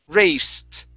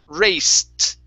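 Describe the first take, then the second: The two takes are said the same way.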